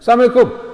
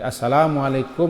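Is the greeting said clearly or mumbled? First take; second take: mumbled; clearly. First: The greeting is mumbled and the l sound dropped. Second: The greeting is said clearly with every sound. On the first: It wishes death on the listener. The speaker calls it wrong. "Digumamkannya, Assalamualaikum. Itu gaya Yahudi" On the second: It wishes peace on the listener. The speaker calls it right. "Jangan dipanjangkan tuhnya"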